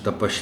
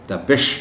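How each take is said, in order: First: The second vowel is 'a'. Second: The second vowel is 'i'. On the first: The speaker calls it wrong. "ये लफ्ज़ तपश नहीं है" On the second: The speaker calls it right. "बल्कि तपिश है"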